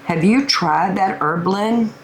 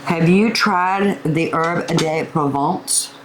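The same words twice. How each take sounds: First: Said in the usual way. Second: Slow, slight stab at a French accent; attempted French accent. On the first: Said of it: "It's not working". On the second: Shown as a demonstration. Cook asks viewers about the herb blend, attempted French accent. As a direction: try a little French on "Herb de Provence", not quite working. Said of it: "with a little French accent".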